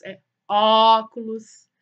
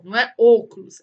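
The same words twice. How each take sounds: First: Óculos with a slow, open Ó, the right way; correct open Ó. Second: Óculos said with a closed ô, the wrong way. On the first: Teacher giving the correct open O in óculos. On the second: Teacher showing the wrong closed O in óculos. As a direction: say óculos as if it started with ô. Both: Shown as a demonstration. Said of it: "ó o O, ó".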